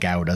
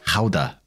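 First: It is pronounced the English way. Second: It is pronounced the Dutch way.

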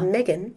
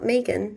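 First: The name is said the non-Australian way. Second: The name is said the Australian way. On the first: The speaker calls it right. "it's Meghan" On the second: The speaker calls it wrong. "in Australia we say it wrong. It's not Megan"

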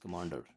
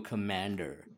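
First: The word is said in an Indian English accent. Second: The word is said in an American accent. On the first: This is how the character says it. "he goes commander" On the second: This is not how the character says it. "The way he doesn't go commander"

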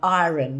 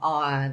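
First: The word is said in an Irish accent. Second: The word is said in an English accent. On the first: This is how the speaker said it as a child. "And iron" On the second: This is how the other schoolchildren said it. "not iron"

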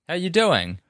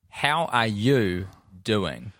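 First: The syllables are run together quickly. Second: Each syllable is clearly articulated.

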